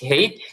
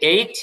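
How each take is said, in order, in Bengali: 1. এটি একটি h ধ্বনি দিয়ে শুরু হয়। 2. এটি সরাসরি একটি স্বরধ্বনি দিয়ে শুরু হয়। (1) "তেমনি হেইচও বলা যায়" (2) "এটাকে যেরকম এইচ বলা যায়"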